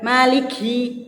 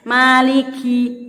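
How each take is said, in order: First: The k is released with too much breath. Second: The k is released with a little breath. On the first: The speaker calls it wrong. "jangan juga itu berlebihan" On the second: The speaker calls it right. "Kaf juga keluar nafas dikit"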